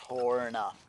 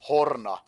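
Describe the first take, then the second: First: It is said with an American pronunciation. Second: It is said with a Finnish pronunciation. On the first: The speaker calls it wrong. "not Horna or anything like that" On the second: The speaker calls it right. "People here say it Horna"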